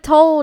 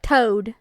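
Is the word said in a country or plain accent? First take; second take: plain; country. First: It is said in a plain accent with a clear l. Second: It is said in a country accent, dropping the l. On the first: "instead of told" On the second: "it's like toad"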